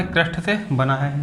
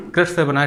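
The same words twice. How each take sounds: First: crust से बना है, said slowly with crust leaned on; slow it down and press crust; stress on crust. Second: Said in the usual way. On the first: Shown as a demonstration. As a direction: drill the answer, weight on crust. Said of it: "जिसको हम लोग क्या कहते हैं". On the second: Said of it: "याद रखना".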